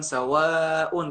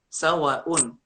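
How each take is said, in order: First: The vowel is held long. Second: The vowel is cut short. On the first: The speaker calls it right. "Sawaun itu harusnya dibacanya panjang" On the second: The speaker calls it wrong.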